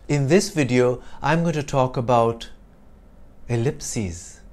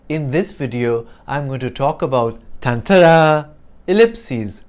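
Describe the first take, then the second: First: A long dramatic pause before "ellipses", then it falls; pause for effect. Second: A loud "tantara" fanfare in place of the pause; sound effect fanfare. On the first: Teacher demos a pause for effect, with a long suspenseful beat. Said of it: "ellipsis used to indicate a pause". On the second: Teacher swaps the pause for a sound effect, with a loud fanfare. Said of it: "the pause for effect is like the tantara". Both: Shown as a demonstration.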